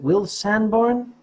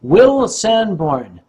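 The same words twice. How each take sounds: First: Said in the usual way. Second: Name drawn out at half speed; slow announcement. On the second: Shown as a demonstration. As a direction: stretch "Will Sanborn" out slowly for note-takers. Announces confirmed name for note-takers.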